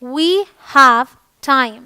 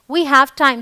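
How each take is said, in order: First: Very slow, every word held apart; slow teaching demo. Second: Said in the usual way. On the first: Shown as a demonstration. Teacher modelling we have time for Hindi students, very slow. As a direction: model it slowly for learners. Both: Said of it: "हमारे पास समय है".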